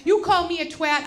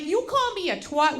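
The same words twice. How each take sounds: First: "twat" with a short a, like "cat"; British twat. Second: "twat" with an open ah, like "twot"; American twat. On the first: Teasing insult to laugh at, British pronunciation of "twat". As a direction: say TWAT the British way, rhyming with hat. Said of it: "As the Brits say". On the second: Warning of a fight, American pronunciation of "twat". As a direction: say TWAT the American way, rhyming with hot. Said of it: "Just that simple turn". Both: Shown as a demonstration.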